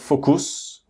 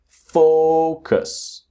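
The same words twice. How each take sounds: First: The stress is not on the first syllable. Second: The stress is on the first syllable. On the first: The speaker calls it wrong. "It's not focus" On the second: The speaker calls it right. "the strong syllable is the first syllable"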